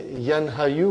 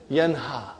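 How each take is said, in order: First: Yanha, Yu said as two parts, with a Yu ending added; the wrong way, Yanha then Yu tacked on; wrong form. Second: Yanha said as one word, with no Yu ending; the right way, just Yanha with a falling close; correct form. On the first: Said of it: "We don't say". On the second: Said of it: "We say". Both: Shown as a demonstration.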